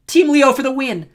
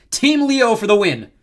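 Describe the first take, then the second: First: High, loud cheering yell; echoed shout. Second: High, loud, drawn-out victory call; rally the crowd to your team; triumphant cheer. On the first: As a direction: shout it back as the biggest fan. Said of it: "Echo shouted". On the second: Leo rallies the crowd. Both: A narrator's reading.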